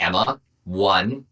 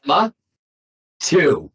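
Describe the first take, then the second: First: Slow, controlled first count; measured countdown warning. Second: "two" set apart, higher and louder; emphatic countdown warning. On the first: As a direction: start a parent's warning count, slowly. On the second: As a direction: pause after "Emma", then hit "two" hard. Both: Retold or imitated. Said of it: "I, I emphasize".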